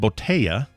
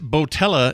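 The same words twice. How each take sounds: First: The double L is said as a Y sound. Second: The double L is said as an L sound. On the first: The speaker calls it right. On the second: The speaker calls it wrong.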